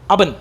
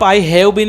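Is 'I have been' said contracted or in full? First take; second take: contracted; full. First: The words are run together into two syllables. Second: Every word is said fully and separately. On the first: The speaker calls it right. "ये spoken skill" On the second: The speaker calls it wrong. "आप आई हैव बीन नहीं बोलते हैं"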